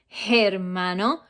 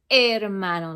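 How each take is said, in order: First: The word begins with a breathy H sound. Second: The word begins directly with the vowel. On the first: The speaker calls it wrong. "The H in Spanish has no sound, so you don't say hermano" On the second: The speaker calls it right. "you say hermano, like the H is not even there"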